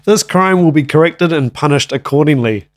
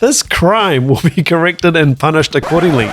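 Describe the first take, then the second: First: It is read in a more serious tone. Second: It is read in a playful, laughing tone.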